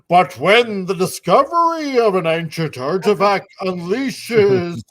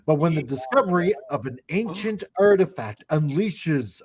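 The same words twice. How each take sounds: First: It is read in a dramatic trailer style. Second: It is read in a plain, ordinary way.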